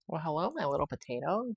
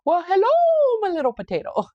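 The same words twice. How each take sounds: First: It is said in her own normal voice. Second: It is said in a Mrs. Doubtfire impression.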